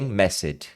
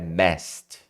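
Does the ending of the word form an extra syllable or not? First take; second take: extra syllable; one syllable. First: The ending is said as an extra syllable. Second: The ending joins the word as one syllable. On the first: The speaker calls it wrong. "não tem messed" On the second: The speaker calls it right. "É messed"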